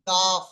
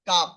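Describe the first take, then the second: First: The word ends with a soft breathy f. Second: The word ends with a hard p stop. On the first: The speaker calls it right. "একটু আহ হালকা করে একটু বাতাস মুখের ভেতর থেকে বার হবে" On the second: The speaker calls it wrong. "পুরোপুরি কাপ বলবেন না"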